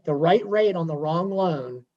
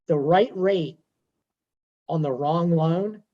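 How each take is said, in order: First: Said in the usual way. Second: Slow, with a pause before each phrase; "the right rate" then a pause, "on the wrong loan" stretched slow; measured emphasis. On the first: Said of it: "Okay, the right rate on the wrong loan". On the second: Shown as a demonstration. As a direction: land each phrase apart, weighty. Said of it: "but I will say this".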